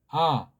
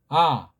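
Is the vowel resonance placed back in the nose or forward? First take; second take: forward; forward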